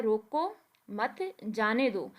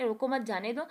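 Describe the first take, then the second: First: Slow "रोको", break, then "मत", then "जाने दो"; drawn-out "रोको मत" with breaks, "जाने दो" falling at the end; comma pause. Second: Said in the usual way. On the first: Shown as a demonstration. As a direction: set "रोको" and "मत" apart with clear pauses before "जाने दो". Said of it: "अगर आप रोको के दरमियान". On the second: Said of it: "coma लगा देते हो".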